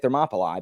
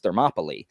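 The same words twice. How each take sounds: First: The final vowel sounds like 'eye'. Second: The final vowel sounds like 'ee'. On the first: This is the Latin pronunciation. "I say Thermopylae because I teach Latin" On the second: This is the Greek pronunciation most people use. "in Greek it's Thermopylae"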